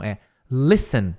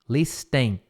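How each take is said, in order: First: The T in the middle is silent. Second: The T in the middle is pronounced. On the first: The speaker calls it right. "Imagina que não tem o T" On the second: The speaker calls it wrong. "Não é listen, listen, não"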